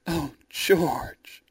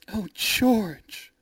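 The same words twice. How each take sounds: First: Whispered, swooning sigh of a name; breathy whisper. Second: High-pitched swooning cry; delighted cry. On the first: Rosalind in George's arms, a whispered swoon. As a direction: whisper it melting into his arms. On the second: Rosalind to George after the rescue, a high delighted cry. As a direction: gush in relief at her rescuer. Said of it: "Rosalind cried". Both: A narrator's reading.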